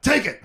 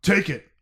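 First: High, loud commanding order; Han Solo redo. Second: Weak attempt at Han's command; a lightly voiced, louder order; terrible Han Solo. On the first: Acted. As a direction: snap out the command with more force. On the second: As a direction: Han Solo telling his son to take the controls, half-heartedly voiced. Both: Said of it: "That was a terrible impression of Han Solo".

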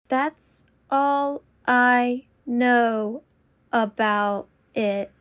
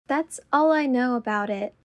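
First: Very slow and deliberate. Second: Said in the usual way. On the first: Shown as a demonstration. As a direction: draw out every word. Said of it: "repetition drill, slowed take". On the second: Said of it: "repetition drill, normal take".

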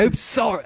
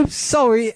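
First: A failed go at a Scottish lilt; attempted Scottish accent. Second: High voice slipping into Cockney instead of Scottish; accidental Cockney. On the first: Host fumbling a Scottish accent for the girl's text. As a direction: try a Scottish girl and miss. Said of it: "I'm not good at". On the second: Host trying a Scottish girl but sounding Cockney. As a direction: aim for Merida, land in Cockney. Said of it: "That's fucking Cockney". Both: Shown as a demonstration.

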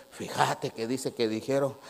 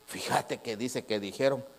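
Both takes have the same delivery.

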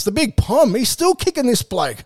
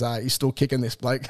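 First: Raised, playful ribbing voice; teasing mate. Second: Said in the usual way. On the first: Pretend. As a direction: poke fun at the old pom, higher. Ribbing an older player.

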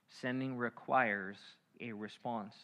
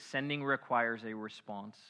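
First: Sending requires said slowly, spaced; preacher repeating the point slowly; slow, emphatic. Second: Said in the usual way. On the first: Shown as a demonstration. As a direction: lean on requires, draw it out. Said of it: "repeated slowly". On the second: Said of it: "repeated for emphasis".

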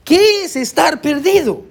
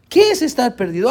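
First: Drawn-out "qué", slow and higher; slow, weighty preacher's question "¿qué es estar perdido?"; emphatic question. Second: Said in the usual way. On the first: Acted. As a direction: stretch the "qué" and ask slowly. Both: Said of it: "la pregunta una vez más es".

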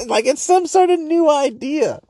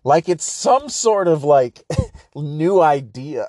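First: High, put-on voice mocking a podcaster; mocking high-pitched imitation of a smug guest; mock pompous podcaster. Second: Slow, laughing mockery; broken up by laughter; laughing through it. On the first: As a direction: sneer it out in a lofty fake voice. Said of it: "repeats the phrase mockingly". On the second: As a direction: giggle while saying it. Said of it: "repeats the phrase".

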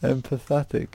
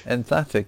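First: "Empathetic" as four syllables, em-puh-THET-ic; wrong pronunciation. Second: "Emphatic" as three syllables, em-FAT-ic; correct pronunciation. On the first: Quiz reader retrying a tricky word, a mispronounced "Empathetic". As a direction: stumble into "Empathetic" with an extra middle syllable, higher pitched. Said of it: "That's not how you say it". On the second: Quiz reader finally gets the word, a correctly said "Emphatic". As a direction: say "Emphatic" cleanly, copying the prompt, falling at the end. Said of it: "There you go". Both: Real, not acted.

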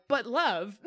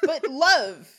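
First: Lightly voiced lovestruck Corey, falling on love; a hint of a smitten boyfriend pleading; mock dreamy Corey. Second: Higher and louder mock plea, falling on love; hammed-up lovestruck Corey. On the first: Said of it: "He's like". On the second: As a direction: ham up the smitten boyfriend's plea. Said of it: "echoes S0's "But love".

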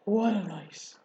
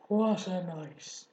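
First: Husky, worn-out rat voice. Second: Slow, hoarse rat voice. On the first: Acted. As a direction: rasp it out after a long night. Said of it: "he said in a husky voice". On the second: A narrator's reading. Rat repeating himself to friends, slow and hoarse. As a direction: drag it out, rough and spent. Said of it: "he repeated hoarsely".

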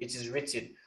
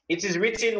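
First: Said in the usual way. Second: "It is written" announced high, WRITTEN lifted; title stressed. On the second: Shown as a demonstration. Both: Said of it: "that's the third teaching we did".

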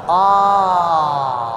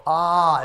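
First: Open-throated ah, a bit louder; throat-opening ah with the head back; ah with head tilted back. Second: Said in the usual way. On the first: Shown as a demonstration. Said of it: "and tilt your head back". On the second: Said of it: "And go".

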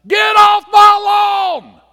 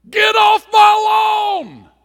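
First: Shrieked high and slow; cranky neighbor screaming at kids to get off his lawn; angry scream. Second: Put-on cranky neighbor screaming at kids to get off his lawn; angry scream. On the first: Retold or imitated. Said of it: "would stand out and scream at us". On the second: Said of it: "Do you see the difference?". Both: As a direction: yell like a furious old neighbor.

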